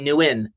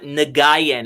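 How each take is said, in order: First: The name sounds like 'new win'. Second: The name does not sound like 'new win'. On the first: The speaker calls it right. "It's like New Win, New Win" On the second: The speaker calls it wrong. "It's not Nguyen, everybody"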